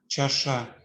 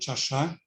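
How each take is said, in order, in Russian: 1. Первый согласный — мягкая аффриката. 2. Первый согласный — твёрдая аффриката.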